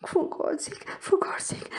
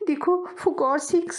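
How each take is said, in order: First: High whispered begging; breathy whispered for God's sake; whispered plea. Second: High, slow voiced plea; slow high spoken plea; begging aloud. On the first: Acted. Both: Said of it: "मिन्नत समाजत करते हुए".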